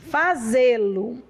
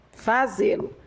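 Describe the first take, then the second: First: Slow, drawn-out Fazê-lo with a rising end. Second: Said in the usual way. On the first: Shown as a demonstration. Teacher spells out Fazê-lo for the class, slow and rising. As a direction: stretch Fazê-lo slowly, lifting at the end. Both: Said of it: "teacher repeats the word".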